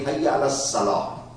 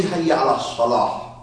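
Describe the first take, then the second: First: Hayya ala Salah with the H dropped and a light plain S; mispronounced. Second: Hayya ala Salah said the proper Arabic way, H from the throat; correct Arabic. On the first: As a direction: Hayya ala Salah said the way a learner slurs it, no throat H. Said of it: "This guy cannot say Hayya ala Salah". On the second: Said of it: "He will say Hayya ala Salah". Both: Shown as a demonstration.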